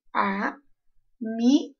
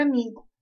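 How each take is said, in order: First: Amigo said slowly, syllable by syllable, leaning on mi; slow classroom demo of amigo with mi stressed. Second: Said in the usual way. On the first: Shown as a demonstration. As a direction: draw out amigo and hit the middle syllable mi. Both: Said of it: "eu disse amigo".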